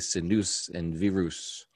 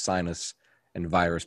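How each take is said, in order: First: The names are said with a non-American pronunciation. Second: The names are said with an American pronunciation. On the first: The speaker calls it right. "but they say" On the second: The speaker calls it wrong. "The American way of saying those words is"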